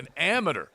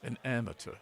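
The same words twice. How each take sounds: First: The consonant after the vowel sounds like D. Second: The consonant after the vowel sounds like T. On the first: "The first time you said that, you said it with a D" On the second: "The second time, right after it, you said it with a T"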